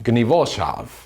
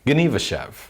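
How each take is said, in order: First: The name is given its Polish pronunciation. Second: The name is given its Yiddish pronunciation. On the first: This is what the Polish residents call the town. "the Poles call it"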